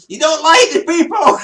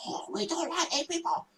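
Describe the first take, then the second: First: High, loud mock shout; retold shout. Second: High, hushed mock whisper; retold whisper. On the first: Visitor loudly repeating the historian's secret, mock shout. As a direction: blurt it back at full volume, imitating yourself. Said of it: "you know I shout". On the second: Historian confiding in a museum visitor, mock whisper. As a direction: imitate a secretive whisper, very soft and high. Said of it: "he was whispering".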